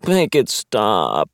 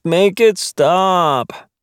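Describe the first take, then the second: First: Slow, groaning plea. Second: Higher, louder, very slow whine; whiny wail. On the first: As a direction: drag it out with a groan. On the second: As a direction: wail it out, begging. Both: Acted. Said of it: "Fitch groaned".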